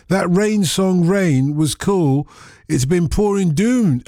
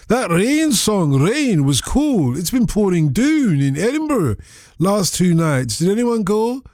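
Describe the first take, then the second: First: Said in the usual way. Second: Slow, drawn-out Scottish accent reading a listener's text. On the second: Shown as a demonstration. Radio host reads an Edinburgh listener's text aloud in a Scottish accent. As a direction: read it like a Scot from Edinburgh, stretching the words. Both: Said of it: "I've got to do it in the accent".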